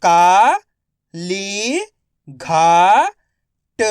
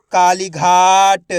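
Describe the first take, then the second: First: Kali घाट drawn out slowly, syllable by syllable. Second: Said in the usual way. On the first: Shown as a demonstration. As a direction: spell out Kali घाट slowly, each part held. (धीरे-धीरे अक्षर-अक्षर खींचकर)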